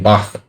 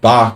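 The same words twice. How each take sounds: First: The word ends in a throaty ch sound. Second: The word ends in a hard k sound. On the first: The speaker calls it right. "It should be Bach" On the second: The speaker calls it wrong. "My pronunciation of Bach is bad"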